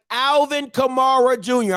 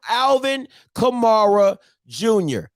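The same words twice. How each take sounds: First: Said in the usual way. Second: Alvin Kamara Junior drawn out slowly, each word weighted; slow emphatic naming. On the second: Shown as a demonstration. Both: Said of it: "I'm calling him that right now".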